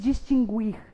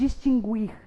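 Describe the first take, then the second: First: The u after the g is pronounced. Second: The u after the g is pronounced.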